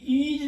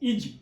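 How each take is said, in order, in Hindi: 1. स्वर खींचकर लंबा बोला गया है। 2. स्वर छोटा और जल्दी से बोला गया है। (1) "ये ईज नहीं है" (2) "ये है इज। तो ई को जल्दी से बोलते हैं"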